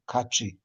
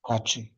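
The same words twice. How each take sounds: First: Cachi with the k pushed hard, glottal burst; cachi with apostrophe. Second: Cachi with an ejective k, held strong; cachi with apostrophe. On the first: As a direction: punch the k in cachi. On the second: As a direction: repeat Cachi with force on the k. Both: Shown as a demonstration. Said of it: "y la pronunciación".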